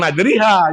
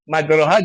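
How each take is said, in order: First: The middle vowel is shifted fully to 'i'. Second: The middle vowel is a full open 'a'. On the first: It overshoots the tajwid rule. "bukan majriha" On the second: It follows the written spelling. "Tulisannya majroha"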